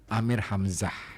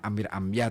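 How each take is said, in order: First: The name is said with an Arabic pronunciation. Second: The name is said with a Javanese pronunciation. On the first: "kalau kita mau ambil logat Arabnya" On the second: "dalam logat Jawa"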